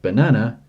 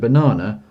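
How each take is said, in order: First: It is said with an American pronunciation. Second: It is said with a British pronunciation.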